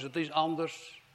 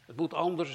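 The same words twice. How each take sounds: First: "is" pressed firmly in "het is anders"; stress on is. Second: Said in the usual way. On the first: Shown as a demonstration. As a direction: lean hard on "is" to correct. (nadruk op "is" in "het is anders")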